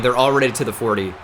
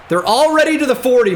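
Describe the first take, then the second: First: Said in the usual way. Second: Higher, louder disbelief at the gain; exasperated repeat, pitched up. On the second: Real, not acted. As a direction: say it again with rising alarm. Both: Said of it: "repeated louder and higher".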